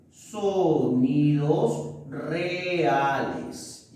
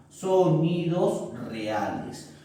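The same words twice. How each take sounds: First: Sonidos reales stretched out very slowly; drawn-out key term. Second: Said in the usual way. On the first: Shown as a demonstration. Teacher stressing the term for the class, very slow and drawn out.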